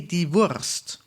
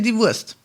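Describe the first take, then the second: First: It is said in a very careful, clear way. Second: It is said in a relaxed, casual way. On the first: This is the textbook form, rarely heard in daily speech. "in a theoretical way, a very correct way to say that, but not very many people will actually say" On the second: This is how people actually say it in daily speech. "that's what I would say if I talk to someone"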